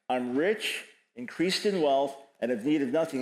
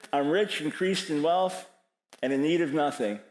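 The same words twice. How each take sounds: First: Said in the usual way. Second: Proud, self-satisfied boasting; smug boast. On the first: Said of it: "Uh, uh, self-perception". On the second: Acted. Preacher voicing the church's self-image, smug and proud. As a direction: puff it up like a church sure of itself. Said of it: "My perception".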